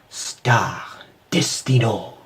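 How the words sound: The name is said in a French accent.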